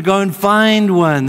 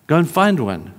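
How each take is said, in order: First: Loud, high, drawn-out exhortation; emphatic urging. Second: Said in the usual way. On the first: Real, not acted. Preacher urging listeners who want a friend, emphatic. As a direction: urge it loudly, stretching it out.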